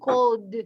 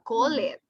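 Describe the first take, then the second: First: The ending is a single D sound. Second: The ending is an extra syllable. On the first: The speaker calls it right. "Like a D" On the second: The speaker calls it wrong. "You don't say call it"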